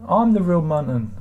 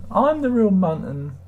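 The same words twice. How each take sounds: First: A hint of a grand declaration; lightly voiced mock claim to be genuine; mock proclamation. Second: Drawn-out, higher mock claim; hammed-up slow insistence; slower mock proclamation. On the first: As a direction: announce yourself as the real one. Answering spoofer accounts in chat. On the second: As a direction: stretch it out like a pompous herald.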